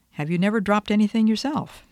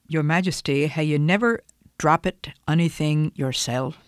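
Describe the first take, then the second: First: Said in the usual way. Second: Put-on a light, half-hearted Scottish accent she admits she can't do well; rolling a mild Scots brogue through the retort. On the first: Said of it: "which I can't imitate accurately". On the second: The speaker imitates John Brown answering Queen Victoria in a mild Scottish accent. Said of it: "in his Scottish accent".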